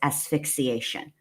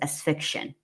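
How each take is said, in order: First: The word is said with all its syllables. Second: The word is said with syllables left out. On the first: The speaker calls it right. "It's asphyxiation" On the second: The speaker calls it wrong. "There's like about three more syllables you're leaving out of that word"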